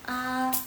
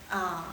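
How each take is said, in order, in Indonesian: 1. Nadanya tetap datar. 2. Nadanya turun dulu, lalu naik lagi. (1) "Nada satu" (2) "nada ketiga ya"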